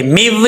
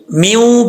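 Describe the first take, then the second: First: "میو" ending on a hard v; waw wrongly unrounded. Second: "میوں" ending in a nasal oo; rounded nasal waw. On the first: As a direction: close "میو" with teeth on lip, no hum. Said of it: "میو نہیں پڑھنا". ("میو" واو گول کیے بغیر) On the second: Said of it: "میوں پڑھیں گے". ("میوں" گول ہونٹوں سے) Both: Shown as a demonstration.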